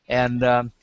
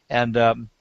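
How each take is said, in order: Both takes have the same delivery.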